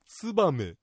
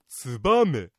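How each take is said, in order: First: The accent falls on the first syllable. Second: The accent falls on the second syllable. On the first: This is the common general pronunciation. "つにアクセントを置いてツバメと発音する人が多いようです" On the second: This is the local Niigata pronunciation. "2 文字目のバにアクセントを置いてツバメと発音するのが一般的"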